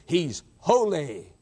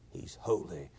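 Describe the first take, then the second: First: Slow, drawn-out declaration; deliberate reverent weight; slow solemn. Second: Much lower, much softer; hushed awe. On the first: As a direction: stretch the words out. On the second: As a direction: sink to a near whisper. Repeat sinks to hush. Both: Real, not acted.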